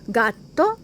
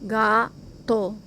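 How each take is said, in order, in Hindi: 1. यह शब्द सामान्य गति से कहा गया है। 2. यह शब्द धीरे कहा गया है, एक-एक अक्षर करके।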